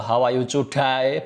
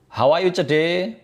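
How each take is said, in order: First: The last syllable sounds like 'die'. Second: The last syllable sounds like 'day'. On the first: It asks how the listener will die. The speaker calls it wrong. "Bagaimana caramu mate?" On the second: It asks how the listener is today. The speaker calls it right. "Ucapkan d bukan die"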